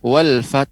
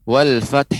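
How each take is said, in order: The two takes are said the same way.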